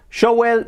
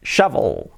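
First: Shovel wrongly as show-well; pronunciación incorrecta. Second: Shovel as SHA-vol, falling; pronunciación correcta. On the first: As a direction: say "shovel" with w instead of v. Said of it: "no diremos shovel". (shovel mal dicho, 'show-uel') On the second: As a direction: say "shovel" with open 'sha' and v. (shovel bien dicho, 'sha-vol') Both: Shown as a demonstration.

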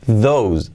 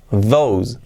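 Both takes have the same delivery.

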